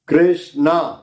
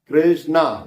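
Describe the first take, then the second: The two takes are said the same way.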